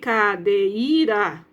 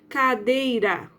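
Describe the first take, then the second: First: The vowels e and i fall into separate syllables. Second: The vowels e and i glide together in one syllable. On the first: The speaker calls it wrong. "Não falei cadeira, né? Eu não falo separado" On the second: The speaker calls it right. "viu que eu falei junto?"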